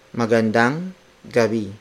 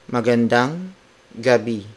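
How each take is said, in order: Both takes have the same delivery.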